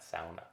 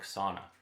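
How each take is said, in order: First: The word has the Finnish pronunciation. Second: The word has the common English pronunciation. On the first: "or as my family would pronounce that" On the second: "more commonly pronounced that way"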